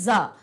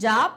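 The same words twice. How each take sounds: First: The syllable starts with a z sound. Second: The syllable starts with a j sound. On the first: "जब इसके नीचे नुक्ता लग जाता है तब जा का क्या होता है" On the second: "जैसे हम यहां पर बोलेंगे जा और फा"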